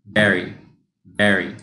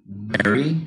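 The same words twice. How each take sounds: First: Very kept level, no rise, falling close; flat very. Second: Very with the pitch rising at the end; mock rising error. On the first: Shown as a demonstration. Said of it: "You keep it flat". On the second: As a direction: copy the wrong rising very. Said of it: "raised it in the end".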